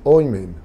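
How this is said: The vowels are oi then e.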